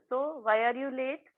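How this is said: It is asked in a calm, simple tone. The listener feels safe to explain the reason. The speaker calls it right. "हा tone इतका simple आणि सरळ होता"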